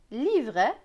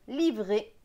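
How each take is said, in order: First: The final vowel is open, like è. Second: The final vowel is closed, like é. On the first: This is how some regions read it. "E T pour certains ce sera est" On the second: This is how other regions read it. "pour d'autres et"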